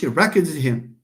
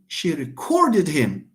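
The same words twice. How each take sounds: First: The stress is on the first syllable. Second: The stress is on the second syllable. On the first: The speaker calls it wrong. "It's not she recorded him" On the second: The speaker calls it right. "because here we have a verb to record"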